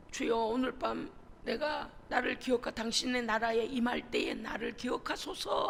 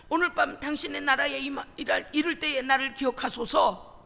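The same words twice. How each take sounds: First: Thief's quiet plea. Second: The plea 기억하소서 said louder, ringing out; thief's fervent plea. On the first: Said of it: "하는". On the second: Thief crying out to Jesus on the cross, louder fervent plea. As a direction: call out 기억하소서 as a cry of faith. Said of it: "그래서 뭐라 그래요?". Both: Retold or imitated.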